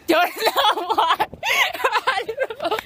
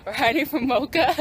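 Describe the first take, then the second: First: Words broken by laughter, high; laughing. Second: Said in the usual way. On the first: Real, not acted. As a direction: laugh through the words while hiding. Laughing while hiding.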